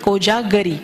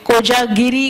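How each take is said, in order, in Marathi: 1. तिसऱ्या अक्षरात 'a' स्वर आहे, ga. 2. तिसऱ्या अक्षरात 'i' स्वर आहे, gi. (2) "कोजागिरी वगैरे असं नाही"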